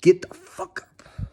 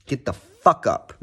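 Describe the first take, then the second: First: Higher, slow hype shout; Ice Cold J T catchphrase. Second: A lightly voiced hype catchphrase; Ice Cold J T catchphrase. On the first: Retold or imitated. Shouting Ice Cold J T's line at viewers, higher and slow. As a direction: belt it like a hype man. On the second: Quoting Ice Cold J T to his viewers, lightly hyped. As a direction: channel the coach's hype line. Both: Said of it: "as Ice Cold J T would say".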